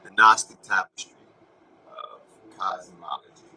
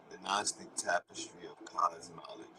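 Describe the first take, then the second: First: Declaimed phrase. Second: Whisper. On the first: Announcing the phrase loudly to his viewers. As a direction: boom "Gnostic" out loud, then let "of cosmology" fall. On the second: Repeating the phrase to viewers in a whisper. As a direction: whisper "The Gnostic tapestry of cosmology" with no voice. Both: Shown as a demonstration. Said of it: "repeats it whispered".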